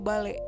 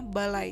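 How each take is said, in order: First: The word ends in e. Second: The word ends in ai. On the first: The speaker calls it wrong. "atau bale" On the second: The speaker calls it right. "semestinya balai"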